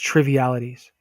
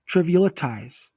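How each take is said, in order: First: The last syllable sounds like 'ease'. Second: The last syllable sounds like 'eyes'. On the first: The speaker calls it right. "Triv. Eel. It. Ease" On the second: The speaker calls it wrong. "Trivial it eyes. Eyes"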